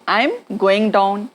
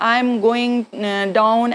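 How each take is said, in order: First: It is said fast with I'm. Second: It is said slowly with hesitations.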